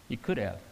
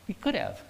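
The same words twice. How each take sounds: First: A soft, low "He could have"; the pastor quietly answers his own question, softly; quiet, low affirmation. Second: A high, wondering "He could have"; the pastor muses aloud, high and wondering; high questioning could have. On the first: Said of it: "repeated answer, second take". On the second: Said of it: "repeated answer, first take". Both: Shown as a demonstration.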